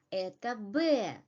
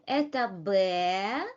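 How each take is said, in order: First: "это Б" stated, pitch falling on Б; falling statement intonation. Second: "Это Б" asked, pitch climbing sharply on Б; rising question intonation. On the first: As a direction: answer with "Б" dropping at the end. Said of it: "use falling intonations". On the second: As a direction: swing "Б" upward as a question. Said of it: "we use a rising intonation". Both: Shown as a demonstration.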